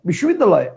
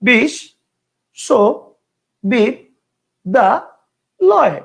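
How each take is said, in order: First: The word is said in one unbroken part. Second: The word is broken into five separate parts. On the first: "একবারে ... একটা" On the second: "পাঁচটা"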